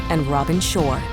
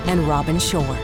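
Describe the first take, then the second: No difference in how they are said.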